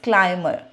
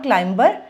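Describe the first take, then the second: First: No B sound is heard in the middle. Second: A B sound is heard in the middle. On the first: The speaker calls it right. "It's क्लाइमर" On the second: The speaker calls it wrong. "It's not क्लाइंबर"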